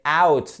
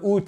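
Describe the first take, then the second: First: "out" with a gliding ow diphthong; correct English OUT. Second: "out" said as a plain French "oot"; wrong French-style OUT. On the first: Teacher modelling the English sound, "out" with a full ow glide. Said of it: "c'est out". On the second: Teacher showing learners the French mistake, "out" as "oot". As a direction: say "out" with one pure French oo vowel. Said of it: "Et c'est pas le out". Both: Shown as a demonstration.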